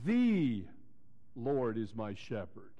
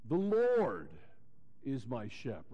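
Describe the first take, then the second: First: The stress falls on the word "the". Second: The stress falls on the word "Lord". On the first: He is the one and only true God. "let me emphasize it that way, like this. ... The" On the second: It points to who he personally is. "Lord, Jehovah"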